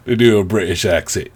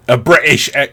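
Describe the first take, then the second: First: Said in the usual way. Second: Half-hearted stab at a British accent; attempted British accent. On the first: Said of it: "I wouldn't even try". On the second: Shown as a demonstration. Podcaster trying a British accent and giving up, faltering British. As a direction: try British and abandon it.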